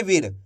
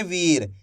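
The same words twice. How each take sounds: First: वीर clipped with a short इ, like विर; wrong short vowel. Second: वीर with the ई clearly stretched long; correct long vowel. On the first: Teacher showing pupils the wrong way: वीर with short इ. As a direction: say वीर too short on purpose, as a mistake. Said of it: "ऐसे नहीं पढ़ेंगे वीर". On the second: Teacher showing pupils the right way: वीर with long ई. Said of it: "इसी तरीके से पढ़ेंगे वीर". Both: Shown as a demonstration.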